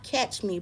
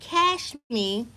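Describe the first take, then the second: First: The word ends with a 'ch' sound. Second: The word ends with an 'sh' sound. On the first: "Not catch me" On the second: "but cash me"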